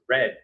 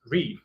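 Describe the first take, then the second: First: It is said with the vowel of 'red'. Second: It is said with the vowel of 'reed'. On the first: The action happened in the past. "if you want to use it in the past, you have to say read" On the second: The action happens now. "if you use present tense and you say read"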